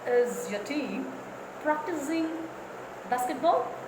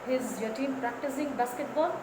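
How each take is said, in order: First: Some words are given strong stress. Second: Every word gets about the same flat weight. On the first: The speaker calls it right. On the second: The speaker calls it wrong.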